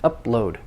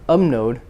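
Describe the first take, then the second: First: The P and L sounds stay separate. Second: The P and L blend into an m-n sound. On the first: The speaker calls it right. "the two consonants, the P and the L, need to be distinct" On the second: The speaker calls it wrong. "So in Korean you say umnode"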